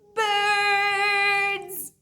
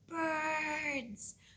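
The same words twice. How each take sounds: First: The word is said very loudly. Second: The word is said very quietly.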